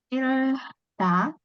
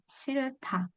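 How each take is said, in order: First: The middle consonant is a plain d sound. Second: The middle consonant is an aspirated t sound. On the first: The speaker calls it wrong. "awalnya kan kita akan baca seolah-olah seperti ini ya" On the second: The speaker calls it right. "tapi kalau H sama D kita akan ganti"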